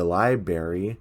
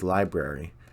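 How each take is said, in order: First: The word is said without its first R sound. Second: The word is said with its first R sound. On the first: The speaker calls it wrong. "Bill keeps on saying library wrong" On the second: The speaker calls it right. "You're missing an R"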